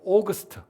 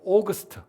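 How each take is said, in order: First: It is said as two syllables, 'aw-gust'. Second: The same.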